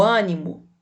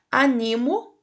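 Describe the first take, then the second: First: "ânimo" said Â-ni-mo; stress on first syllable. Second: "animo" said a-NI-mo; stress on middle syllable. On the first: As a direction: put the weight on the first vowel of "ânimo". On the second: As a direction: put the weight on NI in "animo". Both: Shown as a demonstration. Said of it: "leia os pares de palavras".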